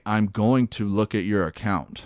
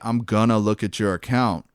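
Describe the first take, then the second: First: 'Going to' is said in full. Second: 'Going to' is reduced to 'gonna'. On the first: It is the expected professional work voice. The speaker calls it right. "you have to say" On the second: It is casual everyday speech. The speaker calls it wrong. "instead of saying like"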